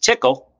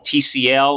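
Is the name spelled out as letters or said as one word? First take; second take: one word; letters. First: It is said as the single word tickle. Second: It is spelled out as three letters. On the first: "or again pronounced Tickle" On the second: "a language we call TCL"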